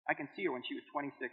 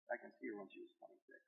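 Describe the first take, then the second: First: Soft memory. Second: Whispered, softer, moved; a private whisper to himself; whispered memory. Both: Real, not acted.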